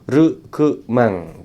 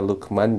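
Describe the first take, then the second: First: It starts with r and ends with ng. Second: It starts with l and ends in a plain n. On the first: "jadi orang Jepang jadinya Rukmang" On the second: "nama saya Lukman"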